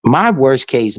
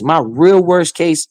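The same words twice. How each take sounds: First: Said in the usual way. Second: Slow, weight landing on "real"; stress on real. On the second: Shown as a demonstration. Correcting his forecast to viewers, slow with stress on "real". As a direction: lean hard into "real" and slow the whole phrase right down.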